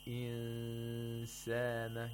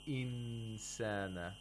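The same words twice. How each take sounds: First: The n is hidden with a long nasal sound. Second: The n is pronounced fully and clearly. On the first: The speaker calls it right. "you make a nasal sound for two vowel counts, like this" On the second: The speaker calls it wrong. "You're doing ilhar of nun sakina. You're pronouncing the nun sakina"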